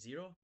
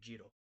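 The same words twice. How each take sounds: First: It is said in a standard accent. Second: It is said in an Indian accent. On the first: "instead of saying zero" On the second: "you would say zero"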